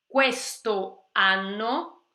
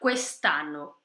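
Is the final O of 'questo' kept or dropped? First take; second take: kept; dropped. First: The final O of questo is kept. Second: The final O of questo is dropped. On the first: "teria um O ali se encontrando com o A" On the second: "cai o O"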